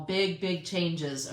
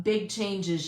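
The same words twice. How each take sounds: First: "Big, big changes" drawn out slowly, leaning on "big"; a slow, weighty "Big, big changes"; slow emphatic repeat. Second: Said in the usual way. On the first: Real, not acted. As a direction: stretch it to make it land.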